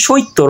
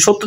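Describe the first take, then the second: First: সৈত্য said shoitto with an i glide; inserted short i. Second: Said in the usual way. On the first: Shown as a demonstration. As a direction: put i before the tt in সৈত্য. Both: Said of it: "মাঝখানে কিন্তু রস্বইকার চলে এসেছে".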